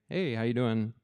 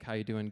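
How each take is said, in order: First: It is said sincerely, with real interest. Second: It is said offhand, as a routine greeting.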